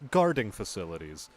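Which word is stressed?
guarding. The stress falls on the word guarding. Facilities where guarding is manufactured. The speaker calls it wrong. "The inflection on guarding facilities was like"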